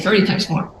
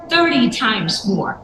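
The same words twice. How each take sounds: First: The phrase is said quietly and without emphasis. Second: The phrase is said clearly and with strong emphasis. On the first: The number gets lost and listeners miss it. The speaker calls it wrong. "You don't say thirty times more. So they can't hear it" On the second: The number is meant to stand out to listeners. The speaker calls it right. "you say it like this"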